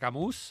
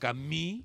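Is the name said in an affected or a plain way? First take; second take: plain; affected. First: The name is said in a plain, ordinary way. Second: The name is said in an affected, posh way. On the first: This is the everyday way to say it. "para mí siempre será Camus" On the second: This is how pretentious people say it. "como dicen los cisnos"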